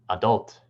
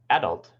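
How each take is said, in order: First: It has the American stress pattern. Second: It has the British stress pattern. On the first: "in American English" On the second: "In British English"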